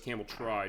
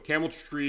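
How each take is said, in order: First: The last syllable sounds like 'try'. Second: The last syllable sounds like 'tree'. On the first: The speaker calls it right. "it is pronounced the way it looks" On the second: The speaker calls it wrong. "is what I used to call it"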